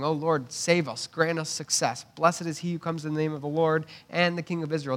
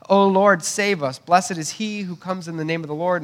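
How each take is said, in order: First: Said in the usual way. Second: Pleading crowd shout; crowd crying out. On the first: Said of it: "Those are quotations from that psalm". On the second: Retold or imitated. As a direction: cry out for rescue like the crowd. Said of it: "They're crying out for a king".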